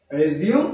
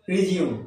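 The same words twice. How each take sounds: First: রিজিউম said "rez-yum"; রিজিউম with a buzzing z, not j; correct pronunciation. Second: রিজিউম said "ree-jium"; common mispronunciation. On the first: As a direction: say রিজিউম with short e and z. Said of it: "এর উচ্চারণ হচ্ছে". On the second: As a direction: say রিজিউম with a j sound. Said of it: "আমরা এটাকে কি বলি?". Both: Shown as a demonstration.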